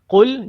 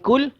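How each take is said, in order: First: The first consonant is made far back in the mouth. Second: The first consonant is an ordinary front k sound. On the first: The speaker calls it right. "Qul pastikan dekat ha, pangkal lidah kita" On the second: The speaker calls it wrong. "jangan kul"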